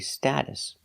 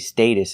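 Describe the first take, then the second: First: The first vowel is short, like in cat. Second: The first vowel is long, like in day. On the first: "In America, we always say status" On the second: "They say status in England"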